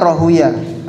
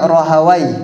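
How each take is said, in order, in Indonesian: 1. Nama itu berakhir dengan bunyi 'uyah'. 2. Nama itu berakhir dengan bunyi 'awai'. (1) "cara bacanya Rahuyah" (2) "Ada juga yang membacanya Rahawai"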